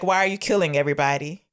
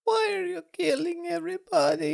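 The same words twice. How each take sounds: First: Said in the usual way. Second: Tiny, very high falsetto wail; mock crying child. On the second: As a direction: squeak it out like a hammed-up upset little girl. Mimics the crying girl's line.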